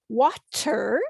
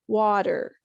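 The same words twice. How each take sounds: First: The middle consonant is a clear T. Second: The middle consonant sounds like a D. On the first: "rather than water" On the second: "we would use a D sound"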